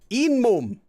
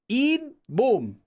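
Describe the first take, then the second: First: The first syllable ends in an n sound. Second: The first syllable ends in a t sound. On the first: "it becomes this same rule" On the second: "it just gets pronounced like eat"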